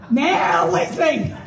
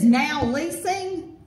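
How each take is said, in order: First: "Now leasing" shouted slow and drawn out through a laugh; mocking shout. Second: Said in the usual way. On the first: Shown as a demonstration. Speaker mocking the Now leasing sign, laughing and shouting. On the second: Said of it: "quotes the sign".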